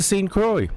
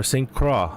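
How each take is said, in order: First: "Croix" ending in an OY sound; anglicized "Croix", pronounced like "kroy"; alternative pronunciation. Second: "Croix" ending in AH, rhyming with spa; French-leaning "Croix", pronounced like "krah"; alternative pronunciation. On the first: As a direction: say Croix as "croy", rhyming with boy. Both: Shown as a demonstration. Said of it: "whatever you wanna call it".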